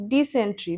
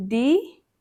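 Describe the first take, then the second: First: Said in the usual way. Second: ডিসেন্ট্রি stretched syllable by syllable, rising on ডি; split into syllables. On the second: Shown as a demonstration. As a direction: say ডি, সেন, ট্রি one at a time. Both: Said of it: "তিনটে syllable যুক্ত শব্দ".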